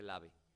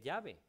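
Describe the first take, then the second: First: It begins with a plain l sound. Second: It begins with a palatal ll sound. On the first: The speaker calls it wrong. "no se dice lave" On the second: The speaker calls it right. "Se dice llave"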